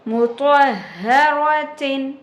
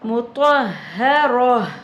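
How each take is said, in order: First: The word ends with a nasal 'tin' sound. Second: The word ends with a silent 'h' sound. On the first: The reading continues without stopping. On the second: The reading stops on this word.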